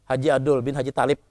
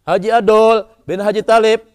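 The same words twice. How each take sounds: First: The name is said softly and quietly. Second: The name is said loudly and openly.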